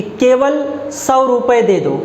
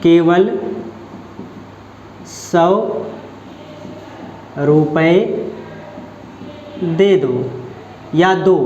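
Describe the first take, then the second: First: केवल punched first, slowed; stress on केवल. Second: Lower, each word spaced with long pauses; slow drawn-out demo. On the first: Teacher example for students, stress on केवल. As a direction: lead hard with केवल. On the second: Teacher spelling the sentence out slowly for students. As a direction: drag it out word by word, weight on केवल. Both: Shown as a demonstration. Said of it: "किस शब्द में निपात है".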